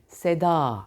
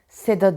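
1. Son ünlü uzundur. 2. Son ünlü kısadır. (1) "A'yı uzattım" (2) "Seda değil"

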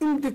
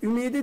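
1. m ile d arasındaki ünlü düşer. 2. m ile d arasındaki ünlü korunur. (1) "Ümdi olmuyor" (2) "Ümidi diyeceğim"

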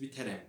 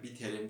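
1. Son hece 'rem' diye okunur. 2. Son hece 'rim' diye okunur. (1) "biterem diyoruz. Çünkü bu yörenin şivesi ve ağzı bu şekilde" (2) "biterim demiyoruz"

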